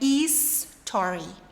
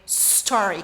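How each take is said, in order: First: It does not start directly with s. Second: It starts directly with the s sound. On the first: The speaker calls it wrong. "não é story" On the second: The speaker calls it right. "é story, começa com S"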